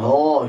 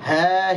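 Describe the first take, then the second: First: The vowel is thick, like an o. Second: The vowel is thin, like a bright a. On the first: The speaker calls it wrong. "Huruf ha jangan dibaca dengan tebal" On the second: The speaker calls it right. "huruf yang tipis"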